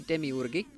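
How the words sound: The word is said with a Finnish pronunciation. "Finnish people say demiurge"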